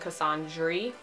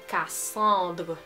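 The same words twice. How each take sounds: First: The name is said with an American pronunciation. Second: The name is said with a French pronunciation. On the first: The speaker calls it wrong. "and Cassandre" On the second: The speaker calls it right. "It's pronounced Cassandre, right? It's very French"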